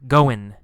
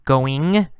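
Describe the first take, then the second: First: Goin' with no g sound at the end; dropped g. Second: Going with the ng sound clearly at the end; full g. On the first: Teacher showing goin' without the final g sound. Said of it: "Sometimes no g sound". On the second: Teacher showing going with the final g sound. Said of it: "sometimes g". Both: Shown as a demonstration.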